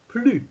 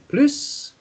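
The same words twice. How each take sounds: First: The final S sound is silent. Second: The final S sound is pronounced. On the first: There is none left. "then you don't pronounce the S sound at the end" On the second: There is more of something. "instead of saying plus"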